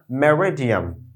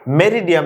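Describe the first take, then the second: First: মেরিডিয়াম drawn out, second vowel reduced to "me-ruh"; English-sounding "meh-ruh-di-um" for মেরিডিয়াম; corrected pronunciation. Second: মেরিডিয়াম in the everyday Bangla way; the mistaken reading of মেরিডিয়াম; wrong pronunciation. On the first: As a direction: say মেরিডিয়াম carefully, English-style. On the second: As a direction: say মেরিডিয়াম with evenly weighted syllables. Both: Shown as a demonstration. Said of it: "মেরিডিয়াম না".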